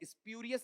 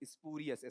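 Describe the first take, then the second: First: The word begins with a 'spyoo' sound. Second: The word begins with a 'spoo' sound. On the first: The speaker calls it wrong. "स्प्यूरियस नहीं" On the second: The speaker calls it right. "स्पूरियस ऐसा"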